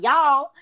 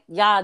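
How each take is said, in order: First: The word is said with an L sound. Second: The word is said without an L sound. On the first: This is not how New Yorkers say it. "It's not y'all" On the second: This is how New Yorkers say it. "when you and New Yorkers say it, it's like, there's no L"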